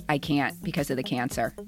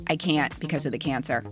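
No difference in how they are said.

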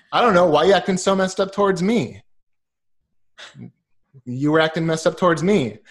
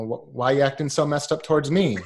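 First: Louder mock retort, echoing his words; Zoolander comeback. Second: Lightly mimicked puzzled model guy; Zoolander quote. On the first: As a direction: throw it right back at him, playfully. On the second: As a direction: toss the line back half-joking, barely acted. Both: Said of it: "like in Zoolander".

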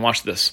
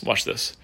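First: Said in the usual way. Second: Unvoiced whisper, a touch softer. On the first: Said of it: "he starts whispering". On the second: Host teasing the crowd, whispering the words. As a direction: breathe it like a secret to the crowd. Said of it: "he starts whispering in this guy's ear".

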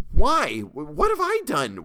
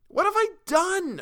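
First: High, loud, broken panicked plea; terrified cry. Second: Very high, slow, louder desperate wail; desperate cry. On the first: Captive begs the lynch mob, terrified high cry. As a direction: cry out in terror, stumbling. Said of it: "I cried out". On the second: Captive cries again to the mob, desperate high wail. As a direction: wail it out in despair. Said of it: "I cried again". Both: A narrator's reading.

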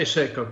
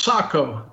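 First: Seiko as SAY-koh; American Seiko. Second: Sako as SAH-koh; official Sako. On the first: Guest allowing the American way, Seiko as SAY-koh. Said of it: "but we're Americans". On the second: Guest correcting the host, Sako as SAH-koh. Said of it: "officially it's Sako". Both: Shown as a demonstration.

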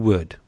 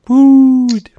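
First: Said in the usual way. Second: "Wood" sung out high and loud; playful drawn-out WOOD. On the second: Acted. Host introducing his co-host, playful high drawn-out "Wood". Playful repeat of co-host's name.

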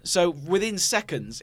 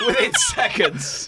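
First: Said in the usual way. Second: High, squealed and drawn out; slow squeal of amused disbelief, louder. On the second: Real, not acted. Teasing a friend writing down the joke, squealed disbelief. Repeats it laughing at the note-writing.

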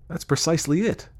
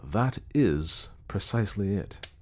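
First: Higher-pitched, quick agreement; eager agreement. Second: Measured, pensive agreement; thoughtful agreement. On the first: Acted. Clayton hearing his elusive idea put into words, eagerly agreeing. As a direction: seize on the point eagerly. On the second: A narrator's reading. Clayton with eyes upon the fire, thoughtfully agreeing. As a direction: weigh "is" as if musing. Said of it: "with thoughtful eyes upon the fire".

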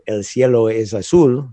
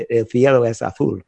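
First: "cielo" and "azul" with an s sound; Latin American Spanish. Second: "cielo" and "azul" with a th sound; Spain's "el cielo es azul", c and z as th; Castilian Spanish. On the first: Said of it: "speak as if they were in Latin America". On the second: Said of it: "as if they were in Spain". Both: Shown as a demonstration.

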